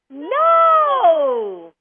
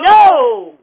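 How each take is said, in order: First: It is said in a happy tone. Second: It is said in an angry tone.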